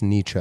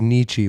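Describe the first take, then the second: First: Nietzsche said as NEE-chuh; corrected pronunciation. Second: Nietzsche said as NEE-chee; common mispronunciation. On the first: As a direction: end Nietzsche on a short "uh". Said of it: "when it's Nietzsche". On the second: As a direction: end Nietzsche on an "ee" sound. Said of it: "how everyone says Nietzsche when it's". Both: Shown as a demonstration.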